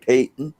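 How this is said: It is said with a British pronunciation. "They say"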